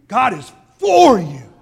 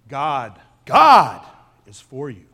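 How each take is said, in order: First: The stress falls on the word for. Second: The stress falls on the word God.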